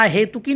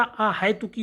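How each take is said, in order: First: अहेतुकी with a plain "he"; wrong middle vowel. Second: अहेतुकी with "hai", as "ahaituki"; correct middle diphthong. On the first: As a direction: say अहेतुकी as "ahetuki". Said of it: "नहीं होता". (अहेतुकी में हे) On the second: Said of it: "होता है". (अहेतुकी में है की ध्वनि) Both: Shown as a demonstration.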